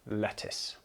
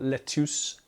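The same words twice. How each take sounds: First: The last syllable sounds like 'tiss'. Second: The last syllable sounds like 'tuce'. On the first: The speaker calls it right. "it is just pronounced uh, L E T T I S" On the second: The speaker calls it wrong. "it's not lettuce"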